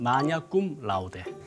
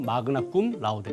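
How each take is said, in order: First: The first word sounds like 'manya', without a hard g. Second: The first word sounds like 'magna', with a hard g. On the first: "로마 발음" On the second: "고전 발음은"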